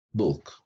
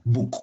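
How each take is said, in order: First: "book" with a lax vowel, falling; "book" with short u. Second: "book" as booook, tense vowel, rising; "book" with long oo. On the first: Teacher modelling for learners, "book" with short relaxed u. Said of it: "se pronuncia". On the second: Teacher showing a wrong form, "book" with long oo. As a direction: stretch "book" with the oo of boot. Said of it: "tampoco se pronuncia book". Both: Shown as a demonstration.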